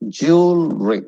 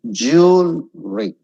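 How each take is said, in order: First: "Jewelry" with a dropping end; falling tune. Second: "Jewelry" said slowly with a rising end; wrong rising tune. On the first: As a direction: let "Jewelry" fall at the end. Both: Shown as a demonstration. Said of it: "It should drop".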